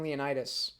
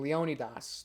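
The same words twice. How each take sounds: First: The name is said the familiar anglicized way. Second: The name is said the original Greek way. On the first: The speaker calls it wrong. "I'll use Leonidas because it's more familiar" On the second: The speaker calls it right. "That's the right way of pronouncing it"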